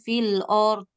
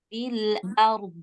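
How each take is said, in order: First: The vowel in the second word sounds like o. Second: The vowel in the second word sounds like a. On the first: The speaker calls it wrong. "Hamzahnya jangan sampai O. Jangan fil or" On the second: The speaker calls it right. "Dia A tetap"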